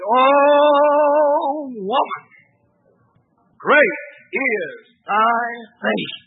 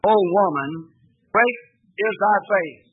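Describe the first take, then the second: First: It is said with a raised, lifted voice. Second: It is said plainly, without raising the voice.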